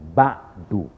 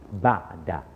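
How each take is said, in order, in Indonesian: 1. Kata ini berakhir dengan vokal 'u'. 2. Kata ini berakhir dengan vokal 'a'. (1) "tak dibaca dengan ba'du" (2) "tapi dibaca dengan qabla ba'da"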